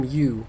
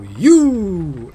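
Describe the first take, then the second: First: Said in the usual way. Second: Loud, high, drawn-out "You!" swooping downward; booming slogan voice. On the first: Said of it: "I could just call him Yu". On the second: Retold or imitated. Commentator gives in to his brain's slogan, booming announcer voice. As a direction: boom it out like a lottery advert. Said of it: "a booming voice would go".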